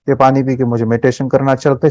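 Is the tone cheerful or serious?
serious. It is said in a flat, serious way.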